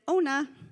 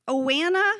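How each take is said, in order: First: The name is pronounced as 'Ona'. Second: The name is not pronounced as 'Ona'. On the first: The owner of the name corrects it. The speaker calls it right. "Ona would just correct Miz Biz and say Ona" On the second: The reader misreads an unfamiliar name. The speaker calls it wrong. "it didn't quite fit with Miz Biz's brain to pronounce that name as Ona"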